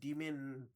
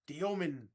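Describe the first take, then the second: First: The name is said with two syllables, like demon. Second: The name is said with three syllables, dee-oh-min. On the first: The speaker calls it wrong. "I'm over here saying like Demon" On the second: The speaker calls it right. "how do you say Igor's last name?"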